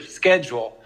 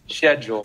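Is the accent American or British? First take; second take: American; British. First: It is said with an American accent. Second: It is said with a British accent. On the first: "Our pronunciations are different" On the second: "And you would say schedule"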